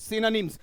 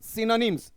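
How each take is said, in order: No difference in how they are said.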